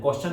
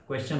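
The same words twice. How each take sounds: First: क्वेश्चन said as "kostion", no w glide; the common Hindi-speaker slip, क्वेश्चन as "kos-chan"; wrong pronunciation. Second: क्वेश्चन said clearly as "kwes-chan" with the w; correct pronunciation. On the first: Teacher mimicking a student's wrong क्वेश्चन. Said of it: "कुछ लोग इसको क्वेश्चन बोलते हैं". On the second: Teacher giving students the correct क्वेश्चन. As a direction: model the right क्वेश्चन, kw at the start. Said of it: "क्वेश्चन नहीं होता है". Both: Shown as a demonstration.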